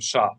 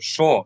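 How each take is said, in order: First: The vowel is an open ah sound. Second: The vowel is a rounded aw sound. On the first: The speaker calls it wrong. "instead of sha" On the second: The speaker calls it right. "So shaw instead of sha"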